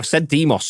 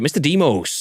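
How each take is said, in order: First: The O is said as a short vowel. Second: The O is said as a long vowel. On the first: The speaker calls it wrong. "I've said Demos too many times" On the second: The speaker calls it right. "long O for sure"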